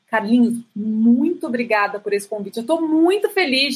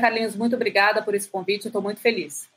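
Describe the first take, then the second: First: The voice is lively with varied pitch inflections. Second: The voice is flat with little pitch variation. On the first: The speaker calls it right. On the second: The speaker calls it wrong.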